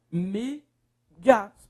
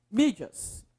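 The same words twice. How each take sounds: First: "Mídias" as two separated pieces, MÍ and DIAS; syllable by syllable. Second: Said in the usual way. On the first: Shown as a demonstration. Teacher separating words for students, "Mídias" syllable by syllable. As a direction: pause long between the syllables of "Mídias". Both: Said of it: "Separe pra mim as palavras".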